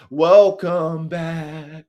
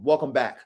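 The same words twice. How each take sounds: First: Very slow, stretched-out words; drawn-out welcome. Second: Said in the usual way. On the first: Real, not acted. Greeting new guys to soldier talk, drawn-out welcome. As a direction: draw out each word of the welcome. Draws out repeated welcome playfully.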